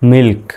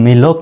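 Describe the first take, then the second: First: The l and k are blended together. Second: The l and k are said separately. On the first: The speaker calls it right. "একসাথে পড়তে হচ্ছে ল আর ক" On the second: The speaker calls it wrong. "উচ্চারণটা এরকম মিলক নয়"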